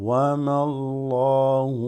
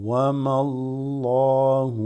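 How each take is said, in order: No difference in how they are said.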